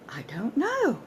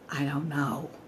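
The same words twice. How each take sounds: First: It sounds genuinely surprised. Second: It sounds frustrated and exasperated. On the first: "Genuine surprise at not knowing"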